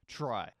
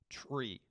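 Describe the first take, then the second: First: The vowel sounds like 'eye', rhyming with 'sky'. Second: The vowel sounds like 'ee', rhyming with 'see'. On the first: The speaker calls it right. "this word that you see right here is actually pronounced try" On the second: The speaker calls it wrong. "if you pronounce it tree"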